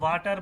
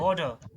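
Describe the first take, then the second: First: The middle consonant is a clear t sound. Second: The middle consonant is a soft d sound. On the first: The speaker calls it wrong. "हम वाटर बोलते हैं, टर बोलते हैं" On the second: The speaker calls it right. "D के साथ"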